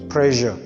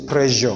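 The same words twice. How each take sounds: First: The middle consonant is an sh sound. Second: The middle consonant is an s sound. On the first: The speaker calls it right. "We say what? Pressure" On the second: The speaker calls it wrong. "We don't say pressure"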